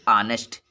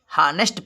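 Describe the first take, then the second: First: The word starts with a vowel sound. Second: The word starts with an h sound. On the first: The speaker calls it right. "यच silent होता है, जिसको बोलेंगे आनेस्ट" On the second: The speaker calls it wrong. "वैसे तो लिखा है हानेस्ट"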